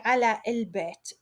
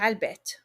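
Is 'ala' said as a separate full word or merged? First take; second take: full; merged. First: The word ala is said fully and separately. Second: The word ala merges into the following word. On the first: The speaker calls it wrong. "we won't say على البيت" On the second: The speaker calls it right. "we just say البيت"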